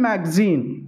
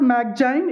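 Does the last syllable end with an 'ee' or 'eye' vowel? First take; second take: ee; eye. First: The last syllable has an 'ee' vowel. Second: The last syllable has an 'eye' vowel. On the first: The speaker calls it right. "It's a" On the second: The speaker calls it wrong. "It's not"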